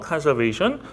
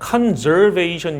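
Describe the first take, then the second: First: The middle consonant is a hissing s sound. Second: The middle consonant is a buzzing z sound. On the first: The speaker calls it right. "conservation이에요" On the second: The speaker calls it wrong. "S 발음인데 이건 다 Z 발음으로 하시더라고요"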